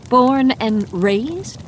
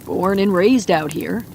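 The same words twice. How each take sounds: First: Higher, slow, rising disbelief; "Born and raised?" drawn out with a rising question; incredulous echo. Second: Said in the usual way. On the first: Acted. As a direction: repeat it back, stretching each word. Woman echoes in disbelief.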